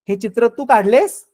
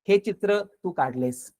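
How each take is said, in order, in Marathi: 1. हे प्रश्नाप्रमाणे म्हटले आहे. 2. हे साध्या, तटस्थ विधानाप्रमाणे म्हटले आहे. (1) "प्रश्नार्थक" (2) "साधा अर्थ"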